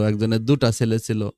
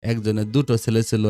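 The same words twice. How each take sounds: First: দুটা with a final a sound; variant Bengali form. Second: দুটো with a final o sound; standard Bengali form. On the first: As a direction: say দুটা ending in an open a. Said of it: "এরকম বিভিন্নভাবে দিতে পারে". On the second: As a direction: say দুটো ending in a rounded o. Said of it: "শুদ্ধ প্রমিত ভাষারীতি". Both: Shown as a demonstration.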